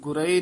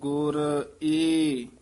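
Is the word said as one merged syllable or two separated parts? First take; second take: merged; separated. First: The sounds merge into a single run-together word. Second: The final e is split off as a separate part. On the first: The speaker calls it wrong. "ਗੁਰੇ ਨਹੀਂ ਕਹਿਣਾ ਹੈ" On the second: The speaker calls it right. "ਸੰਪਰਦਾ ਦੇ ਵਿੱਚ ਪਾਠ ਕਰਾਇਆ ਜਾਂਦਾ ਆਦ ਗੁਰ ਏ"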